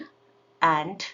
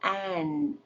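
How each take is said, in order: First: The final d is fully released. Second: The final d is held, not released. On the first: "release ಮಾಡ್ಬೋದು" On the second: "stop ಮಾಡಿದ್ದೀನಿ"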